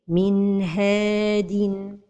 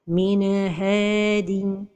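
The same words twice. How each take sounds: First: The N flows smoothly into the H. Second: The N is released with a small bounce. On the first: The speaker calls it right. "la prononciation correcte est" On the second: The speaker calls it wrong. "La première erreur, c'est al-qalqalah de an-noun as-sakina"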